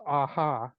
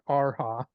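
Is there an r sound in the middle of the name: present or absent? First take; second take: absent; present. First: The name is said without an r sound. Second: The name is said with an r sound. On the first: The speaker calls it wrong. "I thought her name was Aha" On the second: The speaker calls it right. "not Arha"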